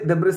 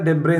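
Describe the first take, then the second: First: The word ends with an s sound. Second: The word ends in a vowel, no s. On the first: The speaker calls it wrong. "ഡെബ്രിസ് അല്ല" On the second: The speaker calls it right. "ഡെബ്രേ എന്നാണ് കേട്ടോ ഉച്ചാരണം"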